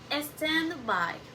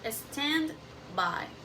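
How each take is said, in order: The two takes are said the same way.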